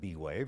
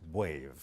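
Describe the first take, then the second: First: The B is said as a separate letter name. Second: The B blends straight into 'wave' as one syllable. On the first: The speaker calls it wrong. "if someone pronounces it B-wave" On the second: The speaker calls it right. "properly pronounced"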